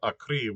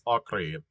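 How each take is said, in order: First: The stress is on the last syllable. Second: The stress is on the first syllable. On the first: The speaker calls it wrong. "It's not Acre, which would be written with an I" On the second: The speaker calls it right. "it ends in an E, so it's Acre"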